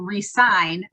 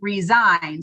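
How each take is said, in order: First: It sounds like re-sign, with an s sound. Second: It sounds like rizign, with a z sound. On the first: People sign on again and stay. The speaker calls it right. "what we really need to be doing is getting people to resign" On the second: People quit their jobs. The speaker calls it wrong. "not to resign"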